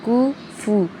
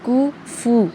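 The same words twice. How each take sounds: Both takes have the same delivery.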